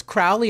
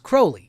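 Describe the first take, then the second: First: Crowley with an "ow" as in "owl"; first syllable like "cow". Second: Crowley with a long "oh"; rhymes with holy. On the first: Host quoting how the singer says Crowley, rhymed with "growly". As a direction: say "Crowley" as CROW-lee rhyming with "growly". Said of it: "he says Crowley and not Crowley". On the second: Host correcting the name Crowley, said with a long "oh". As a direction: say "Crowley" as CROH-lee, like "holy". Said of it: "you know, as in holy". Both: Shown as a demonstration.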